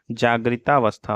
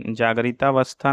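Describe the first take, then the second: First: Said in the usual way. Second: जागरितावस्था with "gari" for "gri"; wrong pronunciation. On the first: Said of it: "होता है". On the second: Shown as a demonstration. Teacher shows students the error, जागरितावस्था with ga-ri. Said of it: "नहीं होता है".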